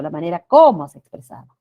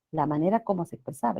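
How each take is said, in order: First: "como" punched out loud; sudden loud emphasis on "como"; stress on COMO. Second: Said in the usual way. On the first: Shown as a demonstration. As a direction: hit the word "como" hard, as if it were a question word. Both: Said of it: "Yo no he dicho".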